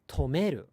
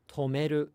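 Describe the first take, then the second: First: The word is said with an accent drop. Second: The word is said without an accent drop. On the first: The speaker calls it wrong. "we think we hear them saying tomeru" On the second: The speaker calls it right. "Japanese people are saying tomeru"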